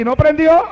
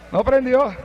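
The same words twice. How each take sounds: First: Rising, puzzled "¿No prendió?" ending high; surprised question. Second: Soft, falling "No prendió" as a final verdict; flat answer. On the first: Narrator wondering why the car won't start, "¿No prendió?" rising. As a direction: ask "¿No prendió?" in disbelief, rising at the end. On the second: Narrator confirming the car won't start, "No prendió" soft and falling. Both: Acted.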